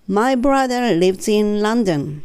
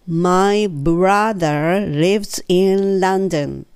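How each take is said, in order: First: The sentence is spoken a little faster. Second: The sentence is spoken slowly. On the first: "3 回目は、ちょっとだけ早め" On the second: "ゆっくり言ってみますね"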